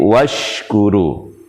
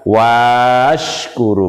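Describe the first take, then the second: First: No long a vowel is heard after the w. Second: A long a vowel is heard after the w. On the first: The speaker calls it right. "karena alifnya tidak dibaca" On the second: The speaker calls it wrong. "bukan washkuru"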